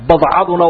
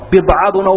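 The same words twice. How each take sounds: First: "badcaduna" with a short a after the b; fatha on ba. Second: "Bidcaduna" with a short i after the B; kasra on ba. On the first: Teacher contrasting two Arabic word meanings, "badcaduna" with fatha. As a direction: say "badcaduna", first vowel open a, not i. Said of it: "albaa'i wa fatxiha". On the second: Teacher contrasting two Arabic word meanings, "Bidcaduna" with kasra. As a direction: say "Bidcaduna", first vowel i as in bid. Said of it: "bikasri alfaa-, albaa'i wa fatxiha". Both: Shown as a demonstration.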